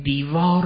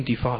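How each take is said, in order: First: Said in the usual way. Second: دیفال said with an f in place of the v of دیوار; دیفال, with f instead of v and the sounds of دیوار kept; colloquial pronunciation. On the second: Shown as a demonstration. Teacher showing how people shorten words, saying دیفال.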